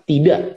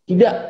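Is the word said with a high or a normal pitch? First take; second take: normal; high. First: The word is said at a normal, neutral pitch. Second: The word is said with a high, raised pitch.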